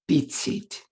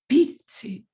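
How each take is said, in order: First: Both words carry equal stress. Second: The stress falls on the first word. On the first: "equal stress on the syllables" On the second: "five is just the reverse"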